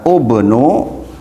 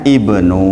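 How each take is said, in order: First: The word begins with a u vowel. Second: The word begins with an i vowel. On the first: The speaker calls it wrong. "harusnya kalau menurut rumus dibaca ubnu" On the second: The speaker calls it right. "tapi dibacanya ibnu"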